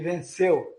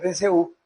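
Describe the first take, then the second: First: The e of the final diphthong is stronger. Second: The u of the final diphthong is stronger. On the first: The speaker calls it right. "O E é mais forte" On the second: The speaker calls it wrong. "Se você vai colocar mais forte o U, fica venceu"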